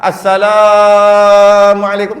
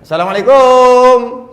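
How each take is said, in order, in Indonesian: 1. Suku kata la dipanjangkan. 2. Suku kata terakhir kum dipanjangkan. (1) "Kalau nak panjang, panjang kat la" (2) "Panjang? Tak boleh"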